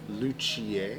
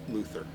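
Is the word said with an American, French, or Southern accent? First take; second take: French; Southern. First: The word is said with a French pronunciation. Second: The word is said with a Southern pronunciation. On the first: "French is luthier" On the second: "if you're from the South"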